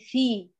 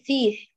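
First: The word ends cleanly without extra breath. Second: The word ends with an audible breath of air. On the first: The speaker calls it right. "قولي في" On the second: The speaker calls it wrong. "لا تقولي فيه، لا تهمسيها في الآخر"

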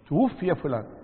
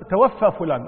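First: The verb is voiced as passive, tuwuffiya. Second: The verb is voiced as active, tawaffa. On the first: Someone else took the person's life. The speaker calls it right. "وإنما هو توفي" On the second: The person did the taking of life. The speaker calls it wrong. "يخطب يقول توفى فلان، لا"

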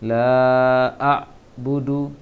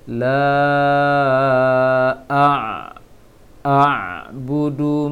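First: The ain is cut short, almost like a glottal stop. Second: The ain sound is sustained briefly in the throat. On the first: The speaker calls it wrong. "Tadi bacanya la a budu, memang sudah masuk ke ain, tapi haknya belum" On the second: The speaker calls it right. "Ain itu dijalankan sedikit"

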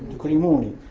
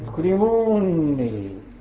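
First: Only one short n sound is pronounced. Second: The two n sounds merge into one long n. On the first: "قد تحذف تخفيفا لتوالي الأمثال" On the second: "وقد تضغم"

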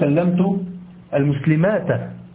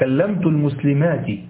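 First: The last word ends without an i vowel. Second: The last word ends with an i vowel. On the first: The speaker calls it wrong. "لا تقول" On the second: The speaker calls it right. "لا، كلمت المسلمات"

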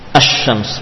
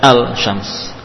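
First: The l merges into a doubled sh sound. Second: A clear l is pronounced before sh. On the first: The speaker calls it right. "menjadi asy-syams" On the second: The speaker calls it wrong. "bukan al-syams"

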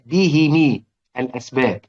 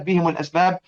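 First: Both the h and the m take an i vowel. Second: The h takes i and the m takes u. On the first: "أبو عمرو كان يكسر الميم تبعًا للهاء" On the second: "باقي القراء زي حفص كده"

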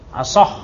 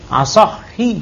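First: The word ends on a consonant, no final vowel. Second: The word ends with a final i vowel. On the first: The speaker calls it wrong. "Asah apa?" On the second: The speaker calls it right. "Ah itu dibaca itu"

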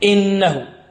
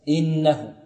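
First: The opening glottal stop is jabbed forcefully. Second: The opening glottal stop comes out gently and smoothly. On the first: The speaker calls it wrong. "هناك من يلكز الهمزة" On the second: The speaker calls it right. "لابد الهمزة تخرج سهلة سهلة سلسة"

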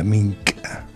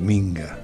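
First: The middle consonant is a voiceless k sound. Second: The middle consonant is a voiced g sound. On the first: This is the original form of the word. The speaker calls it right. "Es la minca. Sí, así como se pronuncia" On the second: This is the popularized, altered form. The speaker calls it wrong. "No podemos pronunciarle tal como es. Dicen la minga"

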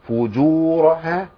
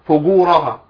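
First: The j sound is hard and strong. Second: The j sound is soft, like sh. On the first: The speaker calls it right. "فيها صفه القوه، فجو فجورها صح كده" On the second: The speaker calls it wrong. "وفي ناس بتقولها فجورها فجو، ما تنفعش، ما عايزين جيم معطشه"

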